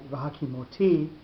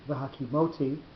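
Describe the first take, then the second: First: The stress is on the final syllable. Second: The stress is on the second-to-last syllable. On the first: The verb refers to the future. "the accent of the syllable goes onto the last syllable" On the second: The verb refers to the past. "rather than where it would normally be the second second last syllable"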